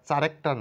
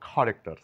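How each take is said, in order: First: The word begins with a ch sound. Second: The word begins with a k sound. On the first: The speaker calls it wrong. "চারেক্টার না বলে" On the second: The speaker calls it right. "বলবো খারেক্টার"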